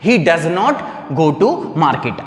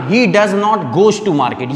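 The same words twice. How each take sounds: First: Slow correct model. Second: Slow wrong example. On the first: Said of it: "अब इस sentence को हम कैसे बोलेंगे बताओ". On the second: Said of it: "आप इसको ऐसे नहीं बोलना". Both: Shown as a demonstration.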